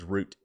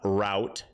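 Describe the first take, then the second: First: It is said the British way. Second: It is said the American way. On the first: "U K English is" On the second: "U S English is uh"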